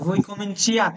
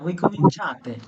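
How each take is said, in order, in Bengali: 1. 'cia' কে 'chi-a' হিসেবে ভাগ করা হয়। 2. 'cia' কে একটি 'cha' হিসেবে এক সিলেবলে বলা হয়। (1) "এখানে চিয়াতে হয় না কিন্তু" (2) "চা"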